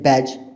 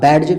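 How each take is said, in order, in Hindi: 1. d की ध्वनि मूक है। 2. d की ध्वनि बोली जाती है।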